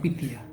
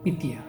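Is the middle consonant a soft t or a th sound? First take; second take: soft t; soft t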